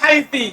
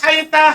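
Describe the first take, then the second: First: The word ends in an i vowel. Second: The word ends in an a vowel. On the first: "haiti dengan kasro" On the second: "Haita bilfat dengan fathah"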